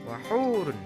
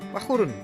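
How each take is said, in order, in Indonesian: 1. Vokal setelah h dibaca panjang. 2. Vokal setelah h dibaca pendek. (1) "Wahurun itu dibaca panjang dua harokat" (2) "Bagaimana kalau dibaca satu harokat?"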